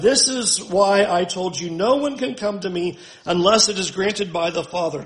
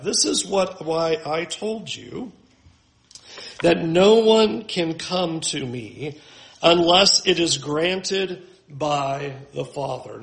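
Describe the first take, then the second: First: Said in the usual way. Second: Slow, deliberate scripture reading; slow emphatic reading. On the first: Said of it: "Here in verse sixty-five". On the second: Shown as a demonstration. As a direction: read it slowly, leaning on no one. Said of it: "notice what Jesus says".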